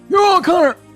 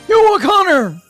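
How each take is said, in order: First: The name is yelled at a faster pace. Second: The name is yelled at a slower pace.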